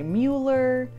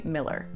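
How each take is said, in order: First: The name rhymes with Bueller, with an oo vowel. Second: The name sounds like Miller, with an i vowel. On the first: This is how outsiders read the name. The speaker calls it wrong. "Normally people would say Mueller, kind of like Ferris Bueller, but it's not" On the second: This is how locals say the name. The speaker calls it right. "In Austin, you say Miller"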